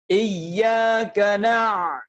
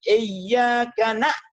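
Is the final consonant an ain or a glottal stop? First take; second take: ain; glottal stop. First: The final consonant is a throaty ain sound. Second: The final consonant is a plain glottal stop. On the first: The speaker calls it right. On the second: The speaker calls it wrong.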